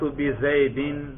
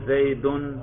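First: The word ends with the sound -in. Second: The word ends with the sound -un. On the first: The word follows a preposition. "دیکھا رفع نصب جر" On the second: The word is the subject of the sentence. "دیکھا رفع نصب جر"

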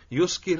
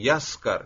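First: The first vowel is u, the second i. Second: The first vowel is a, the second a. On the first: It means making someone else intoxicated. The speaker calls it wrong. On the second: It means becoming intoxicated oneself. The speaker calls it right.

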